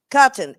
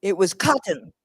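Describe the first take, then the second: First: Cotton said again louder, with a falling tune; emphatic answer. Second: Said in the usual way. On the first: Shown as a demonstration. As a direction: punch the word Cotton home for the class.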